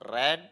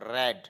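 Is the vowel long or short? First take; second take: short; short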